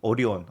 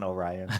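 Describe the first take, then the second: First: It is said with a Japanese pronunciation. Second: It is said with an American English pronunciation. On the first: The speaker calls it right. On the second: The speaker calls it wrong.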